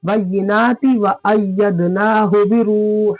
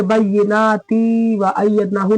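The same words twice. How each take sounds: First: Slow chant, बय्यिनाति with long naa and quick ti; short ti. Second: बय्यिनाति with its final ti held as a long tee; wrongly stretched ti. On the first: Teacher showing the right reading, बय्यिनाति with short ti. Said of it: "ता के नीचे क्या जेर है". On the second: Teacher showing what to avoid, बय्यिनाति ending in long tee. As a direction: drag the ति of बय्यिनाति. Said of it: "नहीं". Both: Shown as a demonstration.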